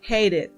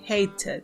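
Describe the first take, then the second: First: The middle consonant is a soft R-like flap. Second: The middle consonant is a clear T sound. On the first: "Usualmente se pronuncia como una R" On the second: "ustedes la pueden pronunciar también con la T"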